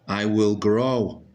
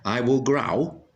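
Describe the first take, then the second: First: The vowel in grow sounds like oh. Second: The vowel in grow sounds like ow. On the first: The speaker calls it right. "so it must be the other sound. O" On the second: The speaker calls it wrong. "That doesn't sound right"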